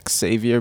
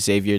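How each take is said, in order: First: The name begins with a 'ks' sound. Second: The name begins with a 'z' sound. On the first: The speaker calls it right. "my mom likes the X sound" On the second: The speaker calls it wrong. "she found out that she was saying it wrong"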